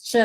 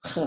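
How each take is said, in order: First: "ch" as in English church, "chuh"; English CH sound. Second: "ch" as a throaty "kh", like Scottish loch; Czech CH sound. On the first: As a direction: give "ch" the English affricate sound. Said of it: "you don't pronounce this as ch". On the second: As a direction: breathe "ch" out as "khuh", no t sound. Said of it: "you pronounce it as ch". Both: Shown as a demonstration.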